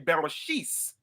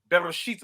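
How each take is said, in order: First: The word ends with an s sound. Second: The word ends with a t sound. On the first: This is how Yiddish speakers say it. "They would say Bereshis" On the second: This is the Hebrew reading of the text. "it says Bereshit"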